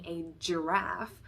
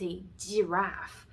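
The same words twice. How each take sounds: First: The g sound at the start is voiced. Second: The g sound at the start is voiceless. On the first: The speaker calls it right. "instead of saying a giraffe" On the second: The speaker calls it wrong. "he might say it's a giraffe, because that G sound is coming from the voiceless consonant in Chinese"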